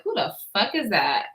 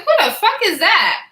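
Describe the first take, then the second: First: Softer, lower awed murmur; recalling the fine man, quietly awed. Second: Spotting a fine man at work, excited. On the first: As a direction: say it under your breath, smitten. Retells it again, dreamy. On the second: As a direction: blurt it out, thrilled. Retells seeing a fine man. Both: Retold or imitated.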